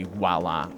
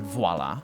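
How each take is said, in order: First: The word begins with a W-like oo sound. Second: The word begins with a clear V sound. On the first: The speaker calls it wrong. "the accent can make you say voila" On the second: The speaker calls it right. "it's V, not oo"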